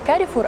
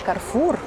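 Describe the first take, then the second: First: An extra vowel is heard between R and F. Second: No vowel is heard between R and F. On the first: The speaker calls it wrong. "Не Карифур" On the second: The speaker calls it right. "а Карфур"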